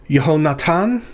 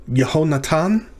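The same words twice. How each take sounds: Both takes have the same delivery.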